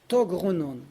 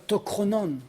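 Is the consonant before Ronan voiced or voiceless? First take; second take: voiced; voiceless. First: A voiced G sound comes before Ronan. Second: A voiceless K sound comes before Ronan. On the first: The speaker calls it right. "on va dire togronan" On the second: The speaker calls it wrong. "pas tokronan"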